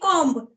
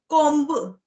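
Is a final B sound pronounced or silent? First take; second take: silent; pronounced. First: The final B is silent. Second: The final B is pronounced. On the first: The speaker calls it right. "in the pronunciation B is silent" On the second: The speaker calls it wrong. "Don't say mm, comb like this"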